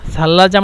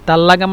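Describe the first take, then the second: First: It begins with a th sound and uses j. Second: It begins with a t sound and uses g. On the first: This is the standard Arabic form. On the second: This is the Egyptian dialect form.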